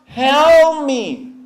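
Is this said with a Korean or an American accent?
American. The L is pulled back into the throat. "미국 사람은 이 L 발음이 어 하고 바, 뒤로 잡아당기면서"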